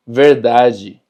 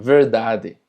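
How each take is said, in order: First: Louder verdade ending in "ji"; DE pronunciado ji. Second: Verdade with a plain d in the final "de"; DE sin palatalizar. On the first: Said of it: "se pronuncia ji". (verdade con final en «ji») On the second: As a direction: keep verdade free of any "ji". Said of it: "habrá lugares donde digan". (verdade con «de» final, sin «ji») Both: Shown as a demonstration.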